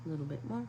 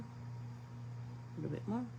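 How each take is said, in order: First: Said in the usual way. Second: Slow whisper, trailing away; soft slow whisper while mixing paint. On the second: Shown as a demonstration. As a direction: breathe it out slowly to the paint. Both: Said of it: "adding water to palette".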